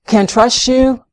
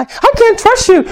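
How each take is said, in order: First: Said in the usual way. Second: I can't trust you, said much higher and loud; accusing parent. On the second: Acted. Anxious parent accusing her lying child, high sharp accusation.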